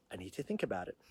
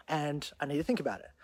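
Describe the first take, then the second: First: Low, soft and unsure; quiet and hesitant. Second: Said in the usual way. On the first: Retold or imitated. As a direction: murmur it, holding back. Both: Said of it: "Like, legitimately".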